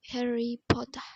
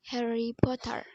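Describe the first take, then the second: First: It has a British accent, final R silent. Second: It has an American accent, final R pronounced.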